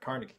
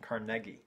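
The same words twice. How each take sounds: First: The name is said in a Boston-style pronunciation. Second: The name is said in a British-style pronunciation. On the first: "coming from Boston, where we all pronounce it" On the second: "If we're gonna be British about it, ... I suppose that's the proper pronunciation"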